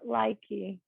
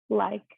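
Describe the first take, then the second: First: An extra vowel sound follows the final k. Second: The word ends on the k with no vowel. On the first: The speaker calls it wrong. "not likey" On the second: The speaker calls it right. "E's sometimes can be silent at the end of words"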